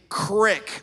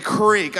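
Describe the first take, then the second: First: The word has a short vowel, like 'crick'. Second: The word has a long vowel, like 'creek'. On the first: The speaker calls it wrong. "there is no such thing as a crick" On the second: The speaker calls it right. "come on, people, it's a creek"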